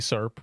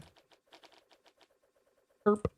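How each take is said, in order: First: The word begins with a soft s sound. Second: The word begins with a hard k sound. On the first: The speaker calls it right. "It should be S E R P with a C" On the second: The speaker calls it wrong. "Pronounced incorrectly"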